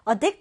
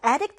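First: "addict" as adDICT, reduced first vowel; stress on second syllable. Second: "addict" as ADdict, clear first vowel; stress on first syllable. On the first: Teacher explains the verb to students, back stress on addict. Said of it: "뒤듬절에 강세가 와요". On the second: Teacher explains the noun to students, front stress on addict. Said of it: "앞음절에 강세가 와서요". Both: Shown as a demonstration.

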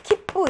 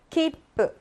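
First: 키뿌 run together in two short beats; Korean style. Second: 키뿌 higher, with a held stop before 뿌; 키뿌 the Japanese way, pausing before 뿌; Japanese style. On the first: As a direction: say 키뿌 quickly with no held pause. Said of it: "근데 우리나라는". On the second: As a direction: stretch 키뿌 into three beats. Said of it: "재패니스 스타일". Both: Shown as a demonstration.

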